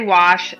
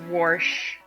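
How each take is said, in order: First: It is said with no R sound. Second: It is said with an R sound. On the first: This is how we say it in our region. The speaker calls it right. "we say wash" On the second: Other people say it this way. The speaker calls it wrong. "not wash"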